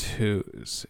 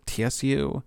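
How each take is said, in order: First: The name starts with a hard H sound. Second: The name starts with a TS sound. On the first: "it's not like James Who's. Like there's a harder H" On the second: "which is like more of a TS sound"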